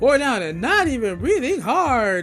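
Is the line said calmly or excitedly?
excitedly. It is said in a more excited way.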